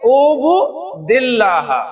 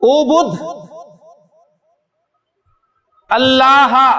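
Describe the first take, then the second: First: The words run together with a linking vowel. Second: The two words are said separately.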